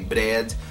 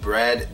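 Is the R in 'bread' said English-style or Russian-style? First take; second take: Russian; English. First: The R is made with a Russian-style tongue. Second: The R is a standard English R. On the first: The speaker calls it wrong. "they will say bread" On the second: The speaker calls it right. "instead of saying bread"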